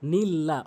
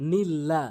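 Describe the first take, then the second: The two takes are said the same way.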